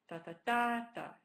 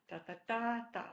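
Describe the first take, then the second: The two takes are said the same way.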